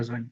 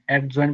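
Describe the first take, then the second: First: No d sound is heard before the j. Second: A d sound is heard before the j. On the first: The speaker calls it right. "বলা যাবে" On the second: The speaker calls it wrong. "বলা যাবে না"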